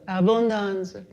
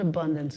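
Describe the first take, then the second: First: The word is said with an expansive Italian accent. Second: The word is said in a plain English accent. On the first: The speaker calls it right. "what my Sicilian grandmother called" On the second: The speaker calls it wrong. "not abundance. Abundance is too little"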